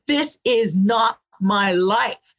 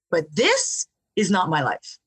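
First: "This is not my life" slow, every word weighted; firm declaration. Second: Said in the usual way. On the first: Retold or imitated. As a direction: plant your foot and say "This is not my life" word by word. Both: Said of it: "I actually stomped my foot".

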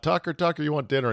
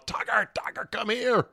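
First: Calling the dog. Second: High whispered coaxing call, mostly breath; coaxing call to the dog. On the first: Wife lures the lost dog back, lightly imitated sing-song call. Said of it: "So she yelled out". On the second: Owner calls his runaway dog with treats, high breathy coaxing. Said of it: "shaking the treat bag furiously from afar, going". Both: Retold or imitated.

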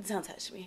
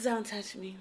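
First: Very soft, flat warning; soft icy don't-touch-me; icy brush-off. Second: Quiet, clipped-off warning; soft, cold don't-touch-me; curt brush-off. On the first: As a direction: shut him down without raising your voice. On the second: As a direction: shut him down coldly. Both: Retold or imitated. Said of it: "she said it just like that".

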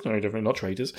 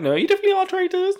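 First: Said in the usual way. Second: High, fast squeaky accusation. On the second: Retold or imitated.

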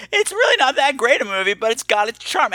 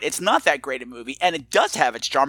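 First: High-pitched mimicry of a caller; imitating the caller. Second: Said in the usual way. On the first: Podcaster mimicking a caller's movie verdict, imitating in a high pitch. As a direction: quote him in a raised, put-upon pitch. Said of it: "and said". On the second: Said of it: "yes, you are right".

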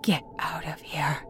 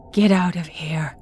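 First: Shaky terrified whisper; trembling whisper. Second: Louder frantic whisper; urgent harsh whisper. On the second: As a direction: push the whisper, panicking. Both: Acted. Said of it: "albeit as a trembling whisper".

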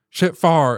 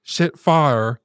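First: "far" as a Southern pronunciation of fire, one short open vowel. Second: "fire" with the full standard two-syllable vowel; shit fire said plainly. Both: Shown as a demonstration. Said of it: "all the times she ever said".

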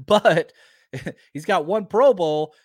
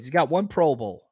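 First: Laughing through the words "he's got one Pro Bowl"; louder, chuckling repeat. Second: Said in the usual way. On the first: Real, not acted. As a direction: laugh as you repeat it, amused at the snub.

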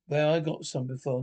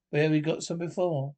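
First: "I" leaned on as the fix; stress on I. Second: "we" leaned on, then corrected; stress on we. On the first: Correcting himself to his wife, stress on "I". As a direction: put the weight on "I" instead. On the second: Remembering a shared trip, stress on "we". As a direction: lean on "we" before the correction. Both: Real, not acted. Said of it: "No, I'm wrong".

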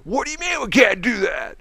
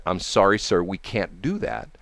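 First: Retold yelling. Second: Said in the usual way. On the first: Customer refused by the clerk, mock yelling in outrage. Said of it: "he starts yelling at her".

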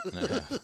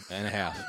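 First: High, laughing repeat. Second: Said in the usual way. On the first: Real, not acted. Repeats it laughing, much higher.

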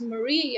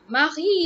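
First: "Marie" as muh-REE, short uh first; correct Marie. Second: "Marie" as MAH-ree, with an open ah; different name Marie. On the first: Repeating the listener's preferred name, correct Marie. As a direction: say "Marie" with stress on a long ree. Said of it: "you're saying it's Marie". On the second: Contrasting it with the listener's name, altered Marie. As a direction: say "Marie" with the first syllable wide and stressed. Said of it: "is a completely different name". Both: Shown as a demonstration.

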